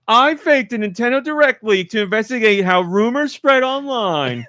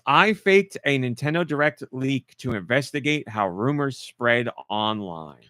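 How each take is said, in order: First: It is read in a put-on streamer voice. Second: It is read in a plain, ordinary voice.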